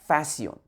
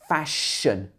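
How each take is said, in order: First: The middle sound is light and s-like. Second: The middle sound is a full sh. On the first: The speaker calls it wrong. "make sure you don't say this like fashion" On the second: The speaker calls it right. "But in English, fashion, shun"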